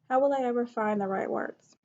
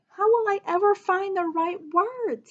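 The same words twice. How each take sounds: First: It is said in a plain, calm voice. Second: It is said in an upset, frustrated voice. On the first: The speaker calls it wrong. "I wouldn't say" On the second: The speaker calls it right. "you could have like an upset voice ... I could read it like that"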